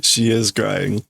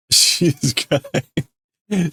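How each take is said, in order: First: Said in the usual way. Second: Higher and very slow, a hammed-up wail; mock crying. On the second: Shown as a demonstration. Narrator echoes the crying girl in a mock wail. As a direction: stretch it out like a crying child.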